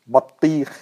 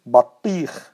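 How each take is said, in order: No difference in how they are said.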